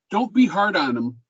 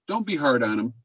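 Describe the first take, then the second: First: Said in the usual way. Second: Gentle repeat. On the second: Shown as a demonstration. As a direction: repeat it gently, as a kind nudge.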